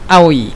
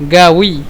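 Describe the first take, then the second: First: The word begins with a glottal stop. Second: The word begins with a hard consonant. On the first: "بالهمزة كده" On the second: "نستخدم قاف يعني غين"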